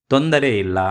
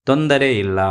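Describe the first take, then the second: No difference in how they are said.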